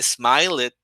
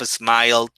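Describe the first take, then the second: First: The ending is said as an extra syllable. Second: The ending is one short d sound. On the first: The speaker calls it wrong. "my student was saying smile it" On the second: The speaker calls it right. "Instead of smiled"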